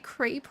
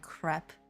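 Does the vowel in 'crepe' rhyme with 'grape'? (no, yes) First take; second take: yes; no. First: The vowel rhymes with the vowel in grape. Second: The vowel does not rhyme with grape. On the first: The speaker calls it wrong. "I say crepe rhymes with grape" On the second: The speaker calls it right. "I heard it was like supposed to be like crepe"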